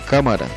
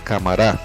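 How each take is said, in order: First: The stress is on the third-to-last syllable. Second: The stress is on the last syllable. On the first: The speaker calls it right. "Así sucede con cámara" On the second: The speaker calls it wrong. "en la última sílaba, se convertiría en palabras agudas"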